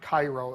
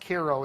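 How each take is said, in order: First: It is said like the Egyptian city's name. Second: It is said with the town's own pronunciation. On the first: The speaker calls it wrong. "It's not Cairo. It looks like Cairo" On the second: The speaker calls it right. "it's pronounced Cairo"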